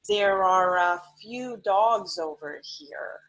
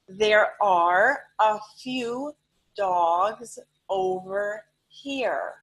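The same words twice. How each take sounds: First: The words are run together smoothly. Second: Each word is said separately and clearly.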